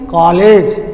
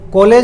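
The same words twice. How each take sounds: First: The first vowel sits between o and aa. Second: The first vowel is a plain, unmixed vowel. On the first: The speaker calls it right. "ओ और आ के बीच की स्थिति" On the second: The speaker calls it wrong. "कॉलेज नहीं"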